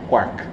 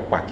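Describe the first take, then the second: First: The word is said with an R sound. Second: The word is said without an R sound. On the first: It names the particle. The speaker calls it right. "Um R no meio" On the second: It sounds like a duck's call. The speaker calls it wrong. "Não é o som do pato"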